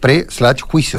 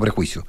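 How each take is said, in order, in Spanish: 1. La palabra se divide con una pausa después de pre. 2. La palabra se dice como una unidad suave. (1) "Es el juicio antes de" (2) "no prejuicio"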